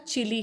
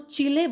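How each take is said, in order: First: It is said with an American English pronunciation. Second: It is said with a Spanish pronunciation. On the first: "US में प्रोनाउंसिएशन इसका चिली है" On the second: "Spanish में इस वर्ड को चिले बोलते हैं"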